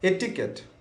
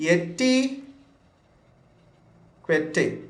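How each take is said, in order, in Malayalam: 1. ഈ വാക്ക് സാധാരണ 'ket' ശബ്ദത്തിലാണ് അവസാനിക്കുന്നത്. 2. ഈ വാക്ക് അക്ഷരങ്ങൾ പോലെ വായിക്കുന്ന 'kwet' ശബ്ദത്തിലാണ് അവസാനിക്കുന്നത്. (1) "എറ്റിക്കറ്റ് എന്നാണ് നമ്മൾ ഇതിന് പ്രൊനൗൺസ് ചെയ്യുന്നതെങ്കിലും നിങ്ങൾ അത് യൂസ് ചെയ്യണം" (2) "ഇവിടെ ശ്രദ്ധിക്കണം"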